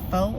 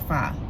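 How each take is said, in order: First: The vowel sounds like 'oh'. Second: The vowel sounds like 'ah'. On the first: "If it's pho, leave an O" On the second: "If it's fa, leave an A"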